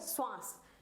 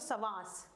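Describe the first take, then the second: First: The first consonant blends into a cluster. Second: The first consonant is a full separate syllable. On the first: The letter is written as a half letter. "लेकिन अगर हमने इसकी पाई हटा दी तो क्या हो गया" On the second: The letter is written in full form. "अगर हम इसको पढ़ेंगे तो क्या हो गया"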